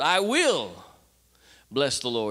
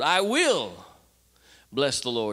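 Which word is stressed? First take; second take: will; will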